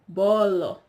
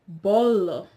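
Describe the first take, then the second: First: The vowels are said with the mouth wide open. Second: The vowels are said with the mouth wide open.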